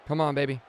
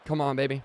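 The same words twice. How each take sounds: The two takes are said the same way.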